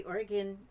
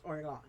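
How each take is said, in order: First: "Oregon" said as OR-uh-gun, last syllable reduced; her own pronunciation. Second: "Oregon" said as spelled, ending like "gone"; spelling pronunciation. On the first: Telling viewers how she'll say it: "Oregon" as OR-uh-gun. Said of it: "I'll say Oregon". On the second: Pointing out the spelling to viewers: "Oregon" ending in "gone". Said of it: "although it's spelled Oregon". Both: Shown as a demonstration.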